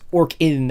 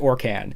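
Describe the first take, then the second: First: The second syllable sounds like 'kin'. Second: The second syllable sounds like 'can'. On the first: "it would technically pronounced Orkin, as in like the Orkin man" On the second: "I pronounce it Orcan"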